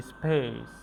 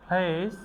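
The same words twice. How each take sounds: First: "স্পেস" falling, with no air on the P; unforced P after S. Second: "প্লেস" high and rising, P puffed; forceful aspirated P. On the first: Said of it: "এক্ষেত্রে জোর দেই না". ("স্পেস"-এ "প"-তে চাপ নেই) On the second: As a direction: start "প্লেস" with a burst of air. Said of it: "pressure দিয়ে উচ্চারণ করি". ("প্লেস"-এর শুরুতে চাপ দিয়ে) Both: Shown as a demonstration.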